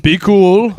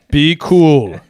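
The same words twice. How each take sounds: First: High, loud rising be cool; mock Lincoln. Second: Louder, falling be cool; calm them down, Lincoln-style; mock Lincoln, settling. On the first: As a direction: coax the crowd like a laid-back Lincoln. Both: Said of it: "You think Lincoln said that".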